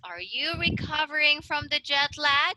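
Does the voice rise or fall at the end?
rise. The voice rises at the end.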